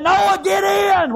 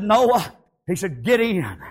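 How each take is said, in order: First: High, drawn-out preacher's shout; slow, soaring holler; shouted command. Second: Said in the usual way. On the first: Acted. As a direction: call Noah in, loud and stretched long. God's command repeated as a shout.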